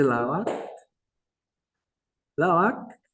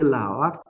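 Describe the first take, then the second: First: "la vac" ending in a plain k sound; final C pronunciation. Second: "la vac" ending in a glottal Q, not a C; contrasted final consonant. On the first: Teacher says it is pronounced like C, plain-k "la vac". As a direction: close "vac" on an ordinary front k. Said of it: "se pronuncia como la C". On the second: Teacher points out a one-letter difference, throaty ending on "la vac". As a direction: end "vac" far back in the throat. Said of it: "Fíjese la diferencia". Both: Shown as a demonstration.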